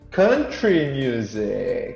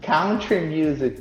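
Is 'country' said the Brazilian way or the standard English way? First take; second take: standard English; Brazilian. First: Country is said with the standard English sound. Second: Country is said the way Brazilians say it. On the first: The speaker calls it right. "but it's actually" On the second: The speaker calls it wrong. "in Brazil everybody says"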